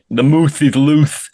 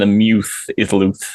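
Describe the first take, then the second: First: The nickname is said like the word moose. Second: The nickname is said like the word muse. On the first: This is the crowd's version of the name. "the moose is loose is much more fun" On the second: This follows the player's actual name. "than the muse is loose"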